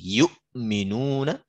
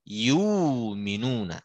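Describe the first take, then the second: First: A glottal stop is heard before 'minuna'. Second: A long vowel is heard with no glottal stop.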